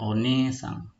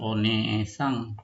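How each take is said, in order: First: The second vowel is long. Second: The second vowel is short. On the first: The speaker calls it right. "Ini agak panjang" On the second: The speaker calls it wrong. "Bukan onesang"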